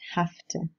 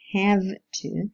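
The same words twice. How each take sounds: First: 'Have' ends in a voiceless f sound. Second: 'Have' ends in a voiced v sound.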